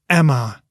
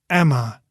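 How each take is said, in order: No difference in how they are said.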